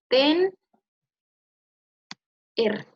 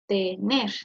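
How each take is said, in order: First: The word is split after the n. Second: The word is said smoothly without a break. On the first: The speaker calls it wrong. "No decimos tener o ten, er" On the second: The speaker calls it right. "Decimos tener"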